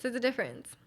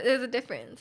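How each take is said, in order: First: Softer echo. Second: Said in the usual way. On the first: Shown as a demonstration. Echoing her point to viewers, softly. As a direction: repeat There's a difference softer, as an afterthought.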